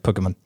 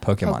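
First: Some vowels are clipped short. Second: The vowels are said fully, not cut short. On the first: The speaker calls it wrong. "you've convinced yourself that some of those vowels have to be cut in half" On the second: The speaker calls it right. "Just pronounce like a normal human"

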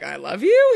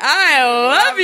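First: It is said mildly, without full commitment. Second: It is said with full intensity, all in.

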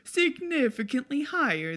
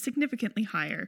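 First: It is spoken with an Italian accent. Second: It is spoken in the speaker's normal accent.

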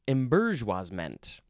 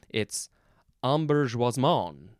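First: The word is said with English sounds. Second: The word is said with French sounds.

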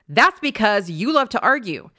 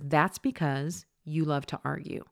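First: The tone sounds offended and emotionally charged. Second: The tone sounds calm, neutral and emotionally detached. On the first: The speaker is personally offended and about to retaliate. The speaker calls it wrong. "Notice the pitch or the tone in my second way that I just said it. I am definitely attached" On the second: The speaker is just giving information, not personally attached. The speaker calls it right. "the first way I said it, which was, ... That tone communicates, I'm just giving you information"

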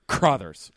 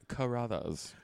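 First: The name is said short, in two syllables. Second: The name is said drawn out, in three syllables. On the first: The speaker calls it right. "like a Crothers, like a sneeze" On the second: The speaker calls it wrong. "like a bougie pronunciation, like Carruthers"

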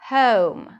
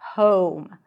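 First: The vowel starts with a central schwa sound. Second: The vowel starts further back with rounded lips. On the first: "In British English, the first sound is actually a schwa" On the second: "as we pronounce it in American English, so it's more of an O sound"

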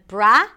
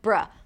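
First: The syllable has a full, open vowel. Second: The syllable has a short neutral schwa vowel. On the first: The speaker calls it wrong. "Not bra" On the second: The speaker calls it right. "a schwa sound. It's a very neutral vowel sound"

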